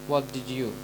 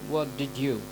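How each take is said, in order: The two takes are said the same way.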